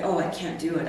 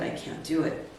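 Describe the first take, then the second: First: Said in the usual way. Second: Near whisper. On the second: Retold or imitated. To her coach about the cost, a soft defeated whisper. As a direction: repeat it breathless and soft, barely voiced. Refusing costly conference ticket.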